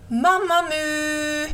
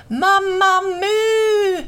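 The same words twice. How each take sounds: First: High, drawn-out call. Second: Very high, loud, long-held holler; louder calling out. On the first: Crow calls for missing Mamma Mu, long high call. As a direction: stretch the name to carry across a field. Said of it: "Han reste sig upp och ropade". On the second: Crow calls again after no answer, louder high holler. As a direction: holler the name at full stretch. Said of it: "ännu högre". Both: A narrator's reading.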